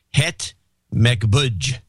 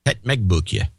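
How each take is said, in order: First: "Het Mekbuj" ending like English "budge"; mispronounced Dutch. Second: "Het Mekboekje" repeated with a "book-yuh" ending; corrected Dutch pronunciation. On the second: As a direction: copy the Dutch "Het Mekboekje", oo vowel then "kyuh". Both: Real, not acted. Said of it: "let me give you the pronunciation".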